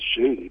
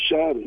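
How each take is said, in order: First: The first vowel is an 'ay' sound. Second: The first vowel is an 'ah' sound. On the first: "they don't pronounce the A as shady" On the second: "but they say Shoddy"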